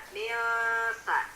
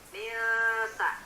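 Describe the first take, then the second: Both takes have the same delivery.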